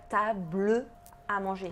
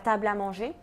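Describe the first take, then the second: First: The E of table is sounded before à. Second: The E of table is dropped before à. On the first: The speaker calls it wrong. "tu dis pas table à manger" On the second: The speaker calls it right. "quand tu le dis, tu dis, ta"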